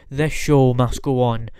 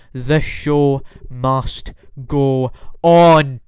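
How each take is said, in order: First: Said in the usual way. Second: Slow, grand, announcer-style proclamation; dramatic showman. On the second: Shown as a demonstration. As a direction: proclaim it like a ringmaster closing the night.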